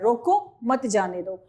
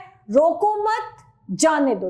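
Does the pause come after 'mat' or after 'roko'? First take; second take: after roko; after mat. First: There is a pause right after 'roko'. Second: There is a pause right after 'mat'. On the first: Stop the person and do not let them go. "रोको के बाद ये अल्प विराम लग गया" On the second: Do not stop the person; let them go. "रोको मत के बाद विराम है"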